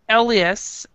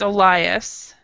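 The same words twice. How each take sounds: First: The name has its Finnish pronunciation. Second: The name has its English pronunciation. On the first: "which is I know it is Finnish" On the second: "In English, it's Elias"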